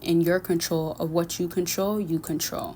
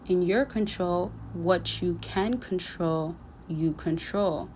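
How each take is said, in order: First: It is said at a normal, quicker pace. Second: It is said slowly, phrase by phrase.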